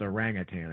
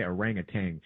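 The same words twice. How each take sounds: First: "orangutan" ending in -tan; corrected pronunciation. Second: "orangutan" ending in a hard -tang; former pronunciation. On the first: Offering how you pronounce the ape's name, "orangutan" ending in -tan. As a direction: say "orangutan" with a clean final n, no g. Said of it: "that's how you pronounce that". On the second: Admitting how they used to say the ape's name, "orangutan" ending in -tang. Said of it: "I used to say". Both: Shown as a demonstration.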